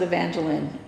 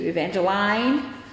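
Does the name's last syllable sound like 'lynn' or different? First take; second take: lynn; different. First: The last syllable sounds like 'lynn'. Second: The last syllable does not sound like 'lynn'. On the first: The speaker calls it right. "I pronounce it Evangeline, L Y N N" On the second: The speaker calls it wrong. "I refuse to answer to Evangeline"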